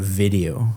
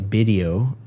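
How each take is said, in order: First: The word begins with a V sound. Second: The word begins with a B sound. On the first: The speaker calls it right. "instead of video" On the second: The speaker calls it wrong. "a lot of Spanish speakers will say video"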